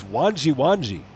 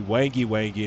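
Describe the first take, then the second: First: Wanji Wanji said with an ah vowel and j; correct pronunciation. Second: Wangy Wangy with a hard g, WANG-ee; Wangy Wangy said like wang plus ee; his own reading. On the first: Reading the right answer to chat: Wanji Wanji, WAHN-jee. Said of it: "It's Wanji Wanji". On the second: Guessing an Australian town name: Wangy Wangy, hard g. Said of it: "I would pronounce that Wangy Wangy". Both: Shown as a demonstration.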